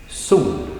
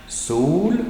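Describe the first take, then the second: First: "sol" starts up and drops steeply; falling tone. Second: "Sol" alone, high and rising; single-word tone. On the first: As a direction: let "sol" fall, as the first part of a compound. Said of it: "a falling tone". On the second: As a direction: lift "Sol" upward as a separate word. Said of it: "first a single word". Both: Shown as a demonstration.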